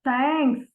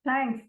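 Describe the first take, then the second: First: It is said with a sarcastic, mocking tone. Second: It is said grudgingly, with reluctance. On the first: The speaker is not grateful at all. "Sarcasm में thanks बोलते हैं" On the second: The thanks is given only because someone forced it. "किसी बच्चे को जबरन बोल दिया दीदी को थैंक्स बोलो, वो क्या बोलेगा?"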